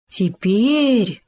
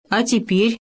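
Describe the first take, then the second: First: Drawn-out, delighted "теперь" falling at the end; rapturous little exclamation. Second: "теперь" rising as a higher-pitched question; prompting, hopeful rise on "теперь"; expectant question. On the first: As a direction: exclaim it with swelling wonder. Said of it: "восторженно сказал Хома". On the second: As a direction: ask "теперь?" with a lift at the end. Bear asks after lifting Homa. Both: A narrator's reading.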